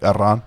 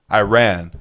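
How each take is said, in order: First: Iran said "ih-RAHN"; native pronunciation. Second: Iran said "eye-RAN"; English pronunciation. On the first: What Iranians call themselves, Iran as "ih-RAHN". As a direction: say Iran with a short first vowel and open "RAHN". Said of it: "'Cause that's what we call ourselves". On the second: Explaining what the country is called, Iran as "eye-RAN". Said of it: "Can y'all call us Iran?". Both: Shown as a demonstration.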